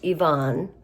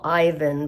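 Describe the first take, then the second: First: The name is said the Russian way. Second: The name is said the English way. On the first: "but it's pronounced Ivan" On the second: "what I would call Ivan"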